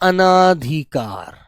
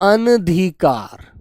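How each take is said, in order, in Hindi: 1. 'an' के बाद का स्वर लंबा 'aa' है। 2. 'an' के बाद का स्वर छोटा 'a' है। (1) "बच्चा इसमें आ की आवाज ले आता है" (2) "जैसे शब्द होता है बच्चों अनधिकार।"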